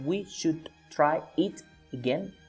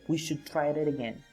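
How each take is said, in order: First: Each word is said separately, not linked. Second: The words run together into one sound. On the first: The speaker calls it wrong. "It is not" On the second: The speaker calls it right. "In here there is only one sound"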